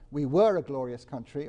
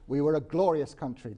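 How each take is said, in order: First: The stress is on "we were". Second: The stress is on "glorious".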